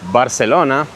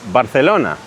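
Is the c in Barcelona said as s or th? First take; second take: s; th. First: The c is said with an s sound. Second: The c is said with a th sound. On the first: The speaker calls it wrong. "it's not Barcelona" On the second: The speaker calls it right. "C and Z are pronounced like th"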